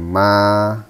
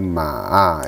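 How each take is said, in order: First: The pitch stays level and flat. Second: The pitch dips down then rises. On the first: It means mother. "Nada pertama itu nada yang datar" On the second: It means a horse. "Ma dengan nada ketiga"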